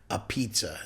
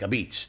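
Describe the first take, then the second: First: It is said with a P and a final vowel. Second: It is said with a B and no final vowel. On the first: "It's not like a pizza" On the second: "P is almost pronounced like a B. ... They don't even put no A in the end"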